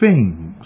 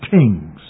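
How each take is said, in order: First: The word begins with a soft 'th' sound. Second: The word begins with a hard 't' sound. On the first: The speaker calls it right. "We say things" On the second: The speaker calls it wrong. "not things"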